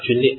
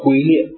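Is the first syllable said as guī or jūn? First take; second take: jūn; guī. First: The first syllable is said as jūn. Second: The first syllable is said as guī. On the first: The speaker calls it right. "它这个发音呢叫皲啊" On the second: The speaker calls it wrong. "不是龟啊，就很像龟甲那个龟"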